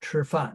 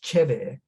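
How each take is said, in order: First: It is said in standard Mandarin. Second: It is said in Shanghainese.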